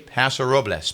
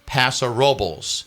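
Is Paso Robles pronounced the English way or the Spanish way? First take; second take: Spanish; English. First: The name is pronounced the Spanish way. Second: The name is pronounced the anglicized English way. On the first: "I went out of my way to say Paso Robles" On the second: "that's how they pronounce it"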